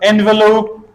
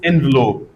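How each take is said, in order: First: The middle vowel is pronounced, giving three syllables. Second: The middle vowel is dropped, giving two syllables. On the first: "instead of envelope" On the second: "we can elide this uh, sound"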